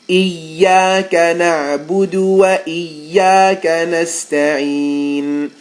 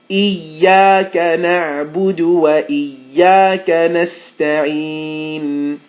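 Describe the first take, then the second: Both takes have the same delivery.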